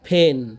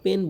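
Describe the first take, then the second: First: The first consonant has a puff of air. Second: The first consonant has no puff of air. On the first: The speaker calls it right. "কিন্তু উচ্চারণ হবে কি?" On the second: The speaker calls it wrong. "আমরা পেন বলি"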